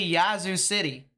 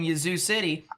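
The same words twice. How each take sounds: First: The A in Yazoo is long. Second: The A in Yazoo is short. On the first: "usually I say" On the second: "it's a shorter A"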